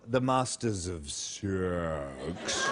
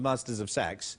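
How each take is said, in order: First: It is said slowly and drawn out. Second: It is said at normal speed.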